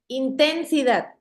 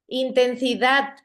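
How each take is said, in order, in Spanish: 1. El acento está en la segunda sílaba. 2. El acento está en la última sílaba. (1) "si la tuviera en la, en la sílaba ten, sonara así" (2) "correcto, es en dat, es en la última sílaba"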